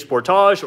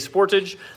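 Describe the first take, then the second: First: The name is said the Canadian way. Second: The name is said the American way.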